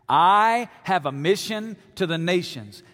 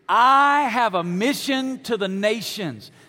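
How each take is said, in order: First: It is said casually, without much conviction. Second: It is said forcefully, with strong conviction.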